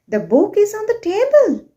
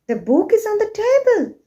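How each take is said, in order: The two takes are said the same way.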